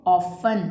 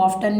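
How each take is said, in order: First: Often said as off-en with a silent t; Often with the t left silent; correct pronunciation. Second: Often said with the t sounded, like off-ten; often with an audible t; wrong pronunciation. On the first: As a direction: drop the t in Often. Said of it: "इसमें भी टी हमारा silent होगा". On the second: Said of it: "इसको often नहीं बोलना". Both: Shown as a demonstration.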